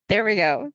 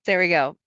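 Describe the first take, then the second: Both takes have the same delivery.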